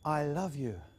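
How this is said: It is said with feeling in the voice.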